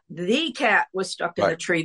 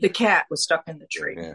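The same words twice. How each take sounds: First: The word 'the' is said fully, like 'thee'. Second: The word 'the' is reduced, like 'thuh'. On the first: It sounds stiff rather than conversational. The speaker calls it wrong. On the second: It sounds natural and conversational. The speaker calls it right.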